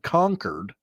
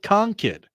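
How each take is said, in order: First: The second syllable is full, like 'cord'. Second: The second syllable is reduced, like 'kid'. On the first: This is the pronunciation proposed as official. "whose preferred pronunciation resembles the word Concord" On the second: This is how old local residents say it. "old Yankee folks who call it"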